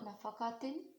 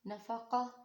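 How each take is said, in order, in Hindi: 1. यह शब्द नासिका वाले '-tin' से ख़त्म होता है। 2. यह शब्द नरम 'h' की आवाज़ से ख़त्म होता है। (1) "अगर वसल में पढ़े हैं ... तो इसको नफ़क़ातिन पढ़ेंगे" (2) "यहाँ पर हम रुक रहे हैं यानी कि वक्फ कर रहे हैं"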